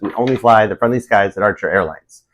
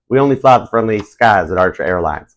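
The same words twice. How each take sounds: First: It is said in the speaker's ordinary accent. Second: It is said in a put-on Southern US accent.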